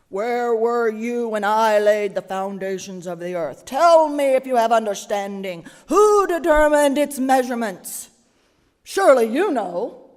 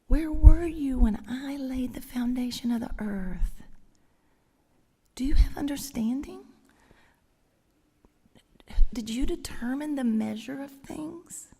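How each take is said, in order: First: Loud, booming God thundering the questions; big voice. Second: Whispered gently instead of thundered; tender whisper. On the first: God thundering at Job from the storm, loud booming. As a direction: boom it out, harsh and mighty. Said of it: "read it in the big voice". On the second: God whispering the questions to Job, gentle whisper. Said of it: "if I were to read it in the big voice". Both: Shown as a demonstration.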